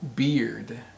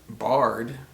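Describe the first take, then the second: First: The vowel sounds like the one in ear. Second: The vowel sounds like the one in car. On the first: The speaker calls it right. "It's pronounced beard" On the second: The speaker calls it wrong. "is not pronounced bard"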